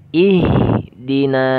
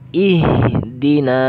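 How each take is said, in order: Both takes have the same delivery.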